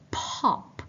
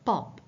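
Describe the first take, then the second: First: The p has a strong puff of air. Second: The p is soft with little air. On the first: "In English, we say pop" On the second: "but in Malay, it should be pop"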